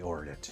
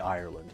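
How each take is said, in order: First: The first vowel sounds like 'or'. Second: The first vowel sounds like 'eye'. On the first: "some some Irish will say Orland" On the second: "I would say Ireland, you know, in, in my natural dialect"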